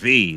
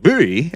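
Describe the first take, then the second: First: The word begins with a V sound. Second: The word begins with a B sound. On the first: "hey, I'm V" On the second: "the Japanese they pronounce V as a B"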